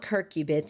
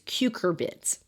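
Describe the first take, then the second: First: The r sound comes in the first syllable. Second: The r sound comes in the second syllable. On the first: The speaker calls it wrong. "It's not curcubits" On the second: The speaker calls it right. "it's cucurbits"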